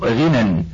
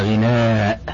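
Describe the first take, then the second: First: The word ends in a short vowel. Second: The word ends in a lengthened vowel. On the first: "فكلمة غنى مثلا مقصورة" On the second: "فيأتي شاعر ويمدها"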